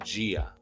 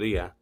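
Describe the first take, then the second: First: The word begins with a j-like sound. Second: The word begins with a plain d sound. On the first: "They pronounce their D with a j sound" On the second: "you pronounce the D"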